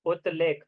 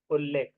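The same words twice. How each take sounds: First: उत्लेख with t and l kept apart, unjoined; split spelling. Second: उल्लेख with a long doubled l; joined form. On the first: Teacher to students, showing the split form, उत्लेख. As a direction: say उत्लेख as separate uth and lekh. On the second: Teacher to students, giving the joined sandhi form, उल्लेख. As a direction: glide into उल्लेख, the l held double. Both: Shown as a demonstration.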